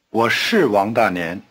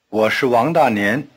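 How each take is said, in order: First: 是 is emphasized with a falling tone. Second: 是 is weakened and toneless.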